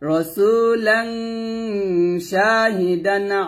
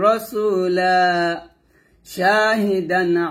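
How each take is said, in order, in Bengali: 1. শব্দগুলো মিলে যায়, শেষে -an। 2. লম্বা -a শেষের পরে থেমে যায়। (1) "মিলাই পড়লে হবে" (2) "আমি ওয়াকফ ধরে পড়ি"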